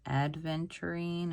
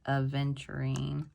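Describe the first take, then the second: First: A 'd' sound follows the first vowel. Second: No 'd' sound follows the first vowel. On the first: The speaker calls it wrong. "I was calling it Adventurine" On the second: The speaker calls it right. "it's just Aventurine"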